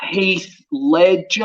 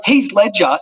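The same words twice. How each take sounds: First: HEATH LEDGER very slowly, as an unfamiliar name; puzzled note-taking. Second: Said in the usual way. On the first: Retold or imitated. Clueless actor noting a name from his agent, HEATH LEDGER slow and unsure. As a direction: stretch out "Heath Ledger", sounding out each word.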